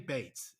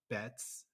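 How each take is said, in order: First: The vowel sounds like the one in 'bait'. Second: The vowel sounds like the one in 'bet'. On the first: The speaker calls it wrong. "because I say Bates" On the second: The speaker calls it right. "I'll correct it"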